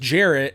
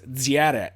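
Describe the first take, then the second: First: The name begins with a plain English j sound. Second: The name begins with a d then zh sound. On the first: This is the name as the speaker says it at home. "my name is Jarrett" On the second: This is the name adapted to a language without a j sound. "they use a D and then kind of like a Z H sound"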